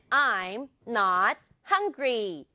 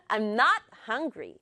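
First: Said in the usual way. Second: "I'm" skimmed, "not" and "hungry" stressed. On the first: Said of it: "두 개만 강조?". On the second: Shown as a demonstration. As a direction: hit "not" and "hungry", keep "I'm" light. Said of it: "굳이 I'm 강조하지 않아도 돼요".

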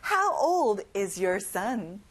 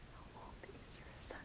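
First: Slow, clear question falling at the end; slow model question. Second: Whispered echo. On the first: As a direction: model it slowly for repetition. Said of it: "같이 따라해봐요". (천천히 따라하기 시범) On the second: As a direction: breathe the question softly. (속삭이듯 따라하기) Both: Shown as a demonstration.

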